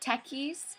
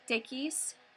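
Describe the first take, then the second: First: It is said the English South African way. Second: It is said the Afrikaans way. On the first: "it's takkies" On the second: "if you're Afrikaans, it's tekkies"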